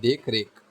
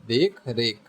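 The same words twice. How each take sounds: Both takes have the same delivery.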